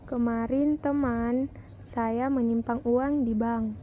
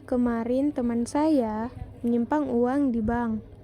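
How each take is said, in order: First: The word teman is stressed. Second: The word saya is stressed. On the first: "Pada kalimat kedua mendapat tekanan pada kata teman" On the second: "pada kalimat ketiga mendapat tekanan pada kata saya"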